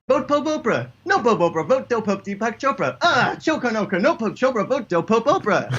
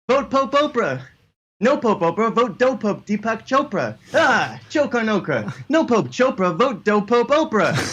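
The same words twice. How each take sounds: First: It is said at a faster pace. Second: It is said at a slower pace.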